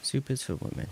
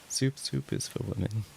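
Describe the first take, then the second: First: High, put-on comic voice quoting the meme; mock meme voice. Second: High, put-on voice, stuttering on soup; mock meme voice. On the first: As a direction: squeak the line like the meme clip. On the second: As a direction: say it again like the meme character. Repeating the meme line.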